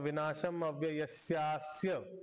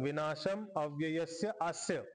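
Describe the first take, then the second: First: The last two words merge into one word. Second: The last two words are said as separate words.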